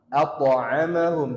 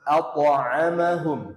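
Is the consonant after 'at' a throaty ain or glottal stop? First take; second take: throaty ain; throaty ain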